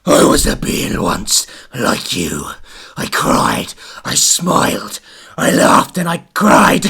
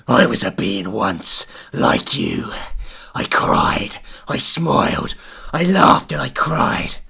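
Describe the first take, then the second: First: Mysterious voice. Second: Lightly voiced eerie being; mysterious voice. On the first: Acted. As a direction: murmur it like a lost spirit. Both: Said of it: "mysterious voice".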